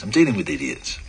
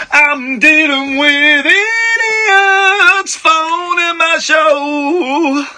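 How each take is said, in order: First: Said in the usual way. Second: Drawn-out mock sung lament, higher. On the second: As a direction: sing the complaint slowly. Host sings his complaint.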